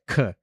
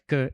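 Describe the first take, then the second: First: The k is said with a puff of air. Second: The k is said without a puff of air. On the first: "and chi was k" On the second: "kappa was k"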